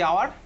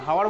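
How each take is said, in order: First: The word starts with a vowel, no h sound. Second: The word starts with an audible h sound. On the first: The speaker calls it right. "Pronounce হয় না, কেউ কেউ আমার omit থেকে যায়" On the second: The speaker calls it wrong. "হাওয়ার বলি না তো"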